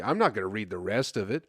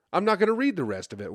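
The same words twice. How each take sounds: First: Said in the usual way. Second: Excited repeat. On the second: Real, not acted. Repeats it, louder and faster.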